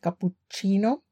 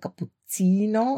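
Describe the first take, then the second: First: It is pronounced the Italian way. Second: It is pronounced the Greek way. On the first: This is the usual form from back home. "nicht Cappuccino" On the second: This is how locals in Greece say it. "die sagen Cappuccino"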